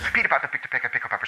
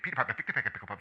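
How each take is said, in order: First: It is said at about five words a second. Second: It is said at about eight words a second.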